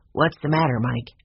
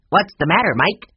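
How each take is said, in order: First: Said in the usual way. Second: Loud, high squawking parrot; talking bird. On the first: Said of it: "Mina, say". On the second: A narrator's reading. Mina the bird repeating the words back, loud squawk. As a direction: rattle it off like a mynah bird. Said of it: "went right along without stopping".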